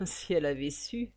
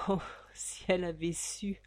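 First: Said in the usual way. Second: Soft hushed whisper; whispered aside. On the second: A narrator's reading. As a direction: lean in and whisper it.

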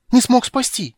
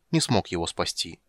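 First: High, loud, agitated cry; excited outcry. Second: Said in the usual way. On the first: Acted. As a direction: blurt it out in alarm. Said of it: "выкрикнул Тасельхов в величайшем волнении". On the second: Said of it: "narration, reading".

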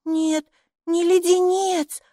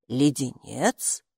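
First: High, slow, drawn-out denial; correcting child. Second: Low, slow, rising question; puzzled echo. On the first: Майки corrects the gatekeeper, high emphatic child voice. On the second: Gatekeeper asks back about the cough drop, puzzled low echo. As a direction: ask it back slowly, rising at the end. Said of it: "переспросила привратница". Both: A narrator's reading.

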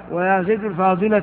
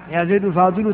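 First: الفاضل ending in short "-a"; accusative by position. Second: الفاضل ending in short "-u"; nominative by wording. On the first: Teacher showing agreement by position, الفاضل with final a. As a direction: pronounce الفاضل as "al-fadila". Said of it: "على المحل". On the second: Teacher showing agreement with the wording, الفاضل with final u. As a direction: pronounce الفاضل as "al-fadilu". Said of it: "تبعه على اللفظ". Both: Shown as a demonstration.

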